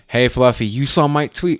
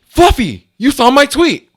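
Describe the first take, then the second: First: It is said quietly and toned down. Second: It is said louder, but not excited.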